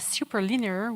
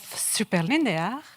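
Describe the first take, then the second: First: It is said with a non-French accent. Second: It is said with a French accent. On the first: The speaker calls it right. "with a better accent, hopefully" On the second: The speaker calls it wrong. "with a French accent"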